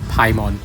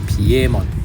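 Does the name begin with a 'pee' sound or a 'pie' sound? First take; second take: pie; pee. First: The name begins with a 'pie' sound. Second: The name begins with a 'pee-eh' sound. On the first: This is how it was read without knowing the origin. "When I was a kid ... I pronounce it Paimon" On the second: This is the original Japanese name. "if you use the Japanese name, it should be Piemon"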